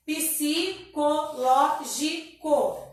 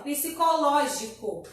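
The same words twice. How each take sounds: First: Psicológico very slowly as psi, co, ló, gi, co; psicológico split up, psi kept together; syllable by syllable. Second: Said in the usual way. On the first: Shown as a demonstration. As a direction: say psicológico in five separate beats. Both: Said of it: "Então, vai ficar".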